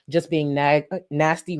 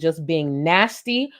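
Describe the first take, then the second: First: The word nasty is said plainly, without emphasis. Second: The word nasty is said with heavy emphasis.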